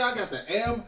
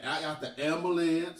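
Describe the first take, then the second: First: Said in the usual way. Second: AMBULANCE said the vernacular way; "ambulance" deliberately in folksy vernacular; colloquial pronunciation. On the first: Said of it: "I'm gonna say it like". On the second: Shown as a demonstration. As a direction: say "ambulance" in casual Black vernacular. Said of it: "say it like the niggas say".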